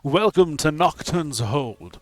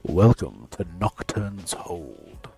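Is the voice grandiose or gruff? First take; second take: grandiose; gruff. First: The voice is grand and booming. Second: The voice is gruff and grumbly.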